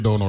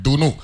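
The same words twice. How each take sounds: First: "Dono" with an o vowel, the Saint Thomas way; mock the wrong "Dono"; wrong pronunciation. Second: "Duno" with a u vowel and DU stressed; right pronunciation. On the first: A Crucian host mocking how Saint Thomas says "Dono". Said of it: "I ain't gonna have you saying". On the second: A Crucian host teaching the proper "Duno". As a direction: correct it to "Duno". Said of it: "emphasis on the first syllables". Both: Shown as a demonstration.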